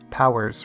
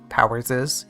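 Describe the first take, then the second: First: No extra syllable follows the name. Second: An extra 'iz' syllable follows the name. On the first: The speaker calls it right. "you can just say Powers request" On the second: The speaker calls it wrong. "awkwardly have a double S like this"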